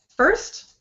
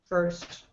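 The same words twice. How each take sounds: First: The pitch rises on the word. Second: The pitch stays flat throughout. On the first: The speaker calls it right. "rising sound. That's a good thing" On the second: The speaker calls it wrong. "flat. Mm-mm, don't do it flat"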